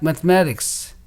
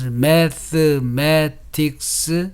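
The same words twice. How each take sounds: First: One syllable is stressed and the others are weak. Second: Every syllable is said clearly with equal strength. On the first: "syllables with accentuation only must be pronounced clearly" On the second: "pronounced clearly with equal strength, like staccato"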